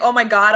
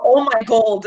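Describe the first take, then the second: First: Said in the usual way. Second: "gold" said in place of "God". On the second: Shown as a demonstration. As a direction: end the phrase on "gold", with an L. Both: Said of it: "Instead of saying".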